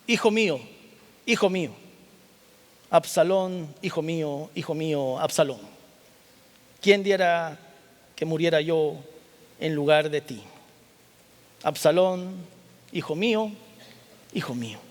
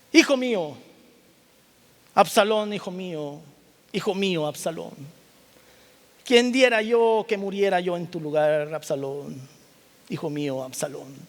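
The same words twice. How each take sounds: First: A touch of mournful crying out; understated grief of a father; mild grieving lament. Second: Lamenting father, rising then fading; grieving cry. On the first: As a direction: call the lost son, gently grieving. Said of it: "y lloró y yendo decía". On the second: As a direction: cry out for the dead son, then let it sink. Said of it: "y lloró y decía". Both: Acted.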